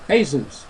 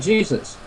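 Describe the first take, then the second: First: The name is pronounced the Spanish way. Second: The name is pronounced the English way. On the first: "And in South America, it is Jesus" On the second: "We say Jesus"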